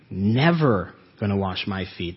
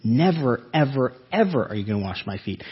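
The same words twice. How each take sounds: First: "Never" leaned on firmly; stress on never. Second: "Never" hit, then "ever, ever" rushed out fast; emphatic never ever. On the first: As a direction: insist on "Never" with weight. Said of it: "That's why I stress that". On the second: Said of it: "The Greek is very emphatic there". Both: Retold or imitated.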